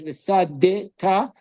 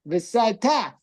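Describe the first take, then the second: First: A short vowel is sounded between s and d. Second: No vowel is sounded between s and d. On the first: The speaker calls it wrong. "just moving. You would pronounce it" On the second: The speaker calls it right. "shvanach, which you don't move it"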